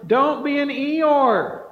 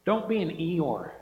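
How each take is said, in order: First: Higher, louder and slow, punching Eeyore; rally the crowd out of gloom; loud exhortation, stretched out; rousing call. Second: Said in the usual way. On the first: Real, not acted. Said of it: "Get excited".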